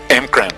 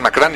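First: The M runs straight into the K sound. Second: A full vowel separates the M and K. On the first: "creo que se pronuncia... M-Cran o algo así" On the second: "en la caricatura de los X-Men decían Macran"

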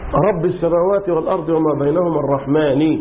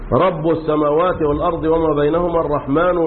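First: Rabb and al-rahman end with an i vowel. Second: Rabb and al-rahman end with a u vowel. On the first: The words describe the preceding word as apposition or attribute. "عاصم بالكسر في الباء كلمة رب والكسر في النون بكلمة الرحمن" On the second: The words begin new clauses with an implied subject. "في قراءة تانية العكس بالرفع الاثنين"

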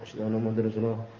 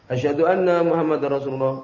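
First: The phrase is said softly, in a low voice. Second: The phrase is said loudly, in a raised voice. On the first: "Kemudian setelah itu bilang dengan pelan" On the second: "Kemudian baru keras"

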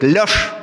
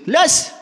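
First: The command is said in a firm, deep voice. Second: The command is said in a weak, childish voice. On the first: An adult man is giving the command. "Идет папа с собакой" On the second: A small boy is imitating his father. "у него еще нет мужского голоса, чтобы твердо сказать"

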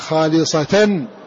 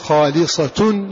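First: The word ends with an a vowel: khalisatan. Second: The word ends with a u vowel: khalisatun. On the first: The word describes the state of the believers. "وباقي القراء قرأوا خالصة بالنصب" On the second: The word is the predicate of the pronoun. "فنافع قرأ بالضم في هذا اللفظ"

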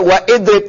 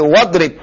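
First: A glottal stop separates wa from idrib. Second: Wa runs straight into drib without a stop. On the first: The speaker calls it wrong. "nggak baca wa idrib" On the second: The speaker calls it right. "tapi wadrib"

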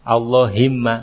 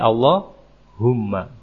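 First: The vowel after the h is i. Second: The vowel after the h is u. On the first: The speaker calls it wrong. "enggak ada" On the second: The speaker calls it right. "Mesti Allahumma"

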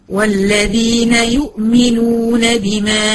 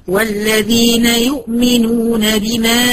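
Both takes have the same delivery.

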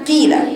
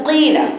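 First: The kasra vowel is clearly heard after the letter. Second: The kasra vowel is muffled after the letter. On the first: The speaker calls it right. "بيبان جدا أثر الكسر فيه جدا" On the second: The speaker calls it wrong. "وليست قيل، خطأ"

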